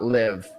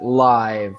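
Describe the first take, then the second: First: It is said the way the verb is said. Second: It is said the way 'live music' is said. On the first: It is the verb form. The speaker calls it wrong. "not live" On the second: It describes something happening in person, like a concert. The speaker calls it right. "we need to pronounce it live"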